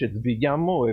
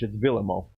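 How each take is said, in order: First: The name is said with a Spanish pronunciation. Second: The name is said with a Swedish pronunciation. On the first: The player is assumed to be Spanish. "if he's Spanish" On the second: The player is assumed to be Swedish. "If he's uh, Swedish"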